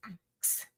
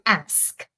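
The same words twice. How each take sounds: First: "axe" ending in ks; softly pronounced "axe" with consonants swapped; ask as axe. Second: "ask" ending in sk; clearly pronounced "ask", consonants in standard order. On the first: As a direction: say "axe", k before s, in a softer voice. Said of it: "see if she says axe". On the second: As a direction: say "ask" with the s before the k. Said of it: "one place where she said ask". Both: Shown as a demonstration.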